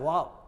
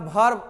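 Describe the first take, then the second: First: The r sound is nearly silent. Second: The r sound is pronounced strongly and heavily. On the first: The speaker calls it right. "र को हल्का सा silent कर देना है" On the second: The speaker calls it wrong. "और इसको तो और जुलुम करके बोलता है भर"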